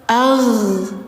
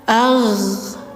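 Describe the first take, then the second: First: The final consonant releases with flowing breath. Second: The final consonant releases with flowing breath.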